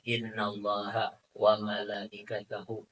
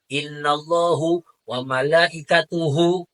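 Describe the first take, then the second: First: Both words end with an 'a' vowel. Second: Both words end with an 'u' vowel. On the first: The speaker calls it right. "barisnya fathah" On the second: The speaker calls it wrong. "dibaca semau dewe. ... Salah kan?"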